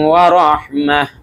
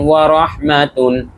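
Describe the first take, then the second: First: The word ends with a soft h sound. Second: The word ends with a full -tun sound. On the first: The reader stops at this point. "ওয়া রাহমাহ বলে থেমে যাব" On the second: The reading continues without stopping. "তা দুই পেশতুন ওয়া রহমাতুন"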